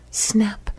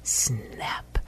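First: High, crisp camera snap. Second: Soft, stretched-out whispery snap; drawn-out camera snap. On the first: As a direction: say it pitched up like a shutter click. Second of repeated camera clicks. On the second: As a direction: let the last shutter click linger, hushed. Last camera click, drawn out softly. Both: A narrator's reading.

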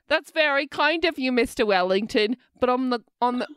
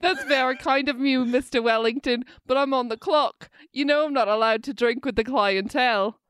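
First: Bad British accent. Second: Put-on amateur British accent, carefully held; shaky British accent. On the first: Waitress politely refuses her client, British accent falling apart. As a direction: attempt British politeness and stumble over it. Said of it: "sorry, my fucking British accent". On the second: Waitress tells client she's on the clock, attempted British accent. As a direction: have another go at polite British. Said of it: "It's falling apart".

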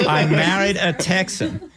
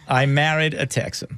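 First: Slow, laughing line. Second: Said in the usual way. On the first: Real, not acted. Guest laughing off the Communist Texan jab, slowly. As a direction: laugh it out, drawn out.

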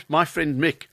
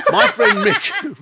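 First: Said in the usual way. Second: High, loud, drawn-out Scouse; Liverpool accent. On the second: Acted. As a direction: exaggerate the Scouse, slowly and loudly. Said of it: "we were talking about that Liverpudlian accent".

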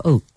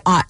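First: Said in the usual way. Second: "ot", vowel opened from long o to ah; "ot" for oat. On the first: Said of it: "ot instead of oat". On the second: Shown as a demonstration. Host asking where oat is said so, "ot" with an ah vowel. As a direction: say "ot" with a short open vowel, like "hot" without the h. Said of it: "would you say ot instead of oat".

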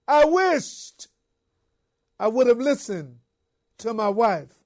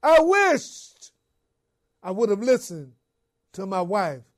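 First: Crying out. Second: Pilate's anguished cry of regret. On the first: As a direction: wail it out, full of regret. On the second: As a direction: cry it out, then let it fall away. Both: Retold or imitated. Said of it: "cried out".

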